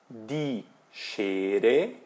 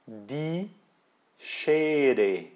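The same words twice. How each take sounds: First: "Die Schere" drawn out, ending on a rise; slow teacher's prompt, "Die Schere" left rising; model for repeating. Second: Word-by-word "Die Schere", settling downward; model for repeating. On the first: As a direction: say "Die Schere" slowly, lifting the end. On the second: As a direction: split "Die Schere" in two and close on a fall. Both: Shown as a demonstration. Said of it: "Falando comigo".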